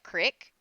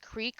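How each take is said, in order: First: The vowel is a short 'i' sound. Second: The vowel is a long 'ee' sound.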